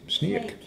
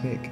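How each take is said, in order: First: Said the English way, with an 'ee' vowel. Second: Said with a Dutch accent and an 'ay' vowel.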